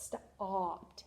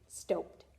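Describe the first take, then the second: First: The vowel is a short 'ah' sound. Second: The vowel is a long O sound. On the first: The speaker calls it right. "I hear ah instead of O" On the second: The speaker calls it wrong. "this E will make this say O"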